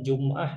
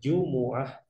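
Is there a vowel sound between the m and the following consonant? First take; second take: no; yes. First: No vowel is heard between m and the next consonant. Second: An u vowel is heard between m and the next consonant. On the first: The speaker calls it wrong. "Jumat itu bukan Jum'ah ya" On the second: The speaker calls it right. "tapi Jumu'ah. Mimnya pakai dhammah"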